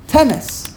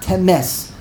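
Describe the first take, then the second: First: Temes with a high first syllable, then falling; first-syllable stress. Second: Temes with stress moved to its last syllable; wrong final stress. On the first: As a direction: hit TE in Temes. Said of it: "in this case is the first syllable". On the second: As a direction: lean on MES in Temes. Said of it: "That's wrong". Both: Shown as a demonstration.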